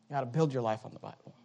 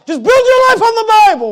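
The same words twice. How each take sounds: First: Said in the usual way. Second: Much higher, much louder cry; shouted climax. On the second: Acted. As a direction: belt the line out to the pews. Preaching climax vs quiet repeat.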